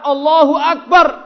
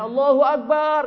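First: It is said in a firm, clipped way. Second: It is said in a soft, melodious way. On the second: "lembut. Merdu"

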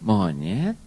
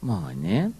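The two takes are said the same way.

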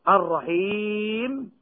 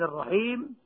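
First: The final long vowel is held for four counts. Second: The final long vowel is held for two counts. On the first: "هذه الثلاثة بالسكون المجرد" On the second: "هذه الثلاثة بالسكون المجرد"

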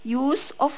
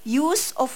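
Both takes have the same delivery.

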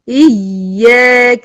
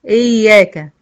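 First: The doubled y is pressed hard with emphasis. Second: The doubled y is said weakly, without emphasis. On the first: The speaker calls it right. "نبر يعني بأرفع الصوت في مقطع معين من الكلمة، يعني بشد عليها شوية" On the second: The speaker calls it wrong. "ما تقوليش إياك"

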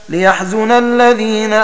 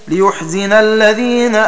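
The two takes are said the same way.

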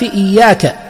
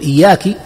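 First: The word ends in ka. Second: The word ends in ki. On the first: It addresses a male. The speaker calls it right. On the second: It addresses a female. The speaker calls it wrong.

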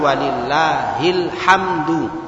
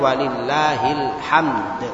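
First: The phrase ends with a final u vowel. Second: The phrase ends on a bare d sound. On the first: This is the full underlying form. "Asalnya walillahil hamdu" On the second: This is the form with the final vowel dropped. "karena disukun jadinya walillahil hamd"

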